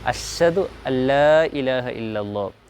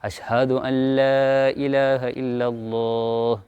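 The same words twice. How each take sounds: First: The h after the sh is weakly articulated. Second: The h after the sh is clearly articulated. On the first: The speaker calls it wrong. "ഇത് തീർത്തും തെറ്റാണ്" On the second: The speaker calls it right. "ഷീനിന് ശേഷം ഹായെ വളരെ കൃത്യമായ മഖ്റജോടുകൂടി"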